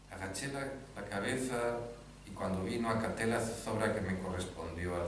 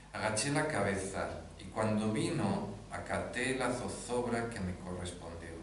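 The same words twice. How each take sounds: The two takes are said the same way.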